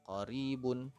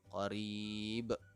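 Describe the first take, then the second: First: The word ends with the full -un ending. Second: The word ends on a bounced final consonant. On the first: The reader continues without stopping. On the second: The reader stops at this word.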